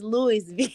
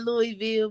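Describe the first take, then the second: First: The S in the name is pronounced. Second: The S in the name is silent. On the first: The speaker calls it right. "but it's Louisville. You gotta say that S though" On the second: The speaker calls it wrong. "Some people say Louisville"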